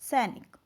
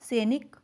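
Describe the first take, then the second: First: The first vowel is an 'ai' sound. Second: The first vowel is a plain 'e' sound. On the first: The speaker calls it right. "तुमने बिल्कुल सही उच्चारण किया है" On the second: The speaker calls it wrong. "पीछे बच्चे ने क्या बोल दिया?"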